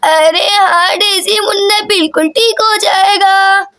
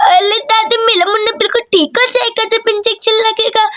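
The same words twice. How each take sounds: First: Doting grandmother. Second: Put-on childish baby-talk lisp; small child babbling to granny; lisping little girl. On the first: Acted. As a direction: stretch the words like a grandmother. Grandmother repeats the reassurance. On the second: Daisy answers about the baby.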